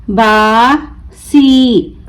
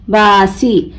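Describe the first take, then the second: First: बासी very slow, long बा, pause, long सी; broken into syllables. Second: Said in the usual way. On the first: Shown as a demonstration. Teacher breaking the word for learners, बा... सी stretched apart. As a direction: draw out बासी as two separate syllables. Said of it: "तोड़ तोड़ कर पढ़ूंगी". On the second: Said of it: "मिलाकर पढ़ें".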